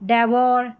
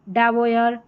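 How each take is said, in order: First: The ending sounds like 'or'. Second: The ending sounds like 'oyer'.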